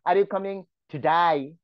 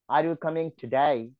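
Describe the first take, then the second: First: It is said in an Australian accent. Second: It is said in an American accent.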